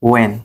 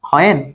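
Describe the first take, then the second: First: The word starts with a w sound, no h. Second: The word starts with an audible h sound. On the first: The speaker calls it right. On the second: The speaker calls it wrong.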